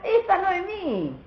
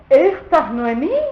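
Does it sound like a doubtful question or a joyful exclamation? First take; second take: joyful exclamation; doubtful question. First: It sounds like a joyful exclamation. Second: It sounds like a disbelieving question.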